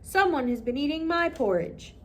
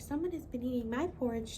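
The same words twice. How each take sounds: First: The voice is loud, deep and booming. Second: The voice is quiet, soft and gentle. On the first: "he cried in his big booming voice" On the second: "She whispered in her quiet, gentle voice"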